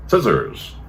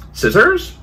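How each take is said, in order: First: "Scissors" falling steeply to a low end; answering echo. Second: High, loud "Scissors", rising at the end; questioning rise. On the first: Cleaner hands over the instrument, "Scissors" falling in answer. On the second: Surgeon asks cleaner for an instrument, "Scissors" rising high. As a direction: ask "Scissors" high, as a request. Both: Acted.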